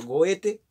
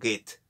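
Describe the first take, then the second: First: The name is read exactly as it is spelled. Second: The name is said differently from its spelling. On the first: "tal cual está escrito" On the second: "algunos lo pronuncian"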